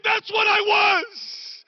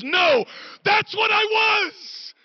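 First: Shouted quote. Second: High, loud, slow declaration; shouted quote. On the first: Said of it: "She said". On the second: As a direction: belt it out as Annie, firm and proud. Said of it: "She goes". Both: Retold or imitated.

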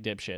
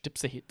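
First: Dipshit as two blunt English syllables; common mispronunciation. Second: Dipsahit in three syllables, dip-sa-HEET; French pronunciation. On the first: Shown as a demonstration. Showing how people get the name wrong, mispronounced dipshit. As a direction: say dipshit low, running it into two syllables, DIP-shit. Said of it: "people pronounce it all the time like". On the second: Pretend. Insisting the name is French, corrected Dipsahit. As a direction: say Dipsahit low and soft, as if French. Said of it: "It's, it's French".

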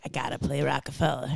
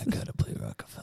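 First: Softer, lower put-on Baldwin voice; lightly voiced Baldwin, low and hushed; Alec Baldwin impression. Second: Fast whispered much lower and softer imitation; whispered Baldwin impression. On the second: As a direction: hiss it out quickly, copying the Baldwin voice. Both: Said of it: "why did I make that his voice?".

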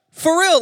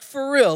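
First: Emphatic. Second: Said in the usual way. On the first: Real, not acted. Repeating the question, much louder.

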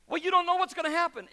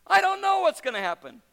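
First: Quick, high, pushy mock objection; doubting onlooker. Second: Loud, high, fervent retort; emphatic answer. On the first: Skeptic challenging the believer, quick high mock objection. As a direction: toss out the skeptic's challenge fast. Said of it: "they're going". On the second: Acted. Preacher rebutting the skeptic, loud high fervent retort. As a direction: fire the answer straight back.

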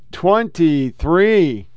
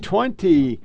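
First: Twenty-three stretched out very slowly; drawn-out date. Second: Said in the usual way. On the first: Real, not acted. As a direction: drag out twenty-three for effect.

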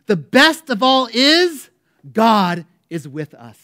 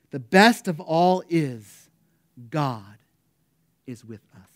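First: Loud, slow, drawn-out proclamation; John Wesley crying out. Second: John Wesley's last exclamation. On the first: Dying preacher in his last moments, loud slow cry. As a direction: cry it out with all remaining strength. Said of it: "Wesley cried out". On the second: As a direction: start strong, let each phrase sink away. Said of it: "he exclaimed with his last". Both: Retold or imitated.

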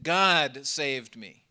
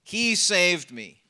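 First: God leaned on, slow and weighty; slow, with weight on "God"; stress on God. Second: "He" stressed, slow; slow, with the weight on "He". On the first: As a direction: lean on "God", then let "saved me" fall. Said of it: "I want to emphasize the first word". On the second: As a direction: push "He" and let "saved me" drop. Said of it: "emphasize the first word". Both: Shown as a demonstration.

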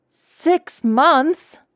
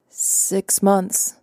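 First: Stunned, as if it can't be true; shocked disbelief. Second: Said in the usual way. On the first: Acted. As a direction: pitch leaps high in disbelief. Shocked inner echo of dad.

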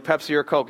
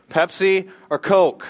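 First: Said in the usual way. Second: Drawn-out, higher and louder host call; playful emcee question; game show call. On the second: Acted. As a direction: stretch it out like a quiz host.

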